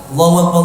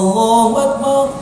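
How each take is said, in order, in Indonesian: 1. Diucapkan dengan cepat tanpa dipanjang-panjangkan. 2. Diucapkan dengan lambat dan dipanjang-panjangkan. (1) "Tapi kalau qomat cepatkan" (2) "Kalau ini tartilkan"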